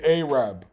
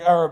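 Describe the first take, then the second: First: The first vowel is long, as in 'day'. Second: The first vowel is short, as in 'cat'. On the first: "they do it with an A as well"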